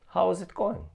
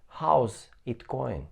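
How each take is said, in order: First: 'How is' is said as two full words. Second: 'How is' is contracted to one syllable.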